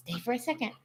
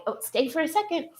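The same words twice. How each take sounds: First: Higher but much softer "Stay for a second"; soft repeat to dog. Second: Much higher, fast sing-song "stay"; coaxing the dog. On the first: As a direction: hush it gently to the dog. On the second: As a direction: coax the dog with a bright, quick plea. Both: Real, not acted.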